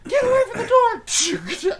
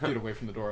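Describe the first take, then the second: First: It is said loudly, with force. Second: It is said quietly, without force.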